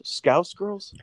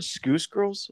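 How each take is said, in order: First: "Scouse" rhyming with "house"; correct Scouse vowel. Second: "Scouse" said like "skoose"; mispronounced Scouse. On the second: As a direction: say "Scouse" with an oo vowel, questioning. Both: Shown as a demonstration. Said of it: "What's that word?".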